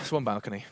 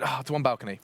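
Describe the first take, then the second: First: It is said in a calm tone. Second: It is said in an annoyed tone.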